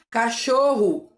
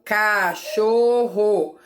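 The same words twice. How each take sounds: First: Said in the usual way. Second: Cachorro slowly as ca-chor-ro; three clear mouth openings on cachorro; syllables spelled out. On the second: Shown as a demonstration. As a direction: cachorro split into slow syllables. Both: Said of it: "Quantas vezes eu abro a minha boca".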